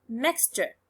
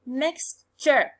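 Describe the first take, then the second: First: Said in the usual way. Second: "mixture" in two parts, mix, then ture; teacher's syllable-by-syllable "mixture"; split into syllables. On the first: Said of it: "The first one". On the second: Shown as a demonstration. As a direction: break "mixture" before its suffix, each syllable distinct. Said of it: "there is a little line before the suffix".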